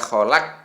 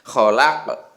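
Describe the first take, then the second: First: The final q stops flat without an echo. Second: The final q ends with a bouncing echo. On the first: The speaker calls it wrong. "tidak boleh dibaca kholaq" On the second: The speaker calls it right. "Harus ada ke-nya itu"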